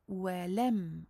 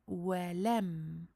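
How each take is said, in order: The two takes are said the same way.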